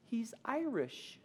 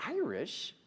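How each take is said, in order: First: High, drawn-out tearful squeak; slow, high mock-weepy voice; retold tearful wife. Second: High, puzzled question; retold bewildered husband, pitched up; baffled echo. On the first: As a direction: imitate wife choked with happy tears. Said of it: "tears streaming down her face". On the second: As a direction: repeat it in disbelief. Husband baffled by wife's claim.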